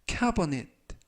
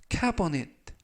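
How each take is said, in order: The two takes are said the same way.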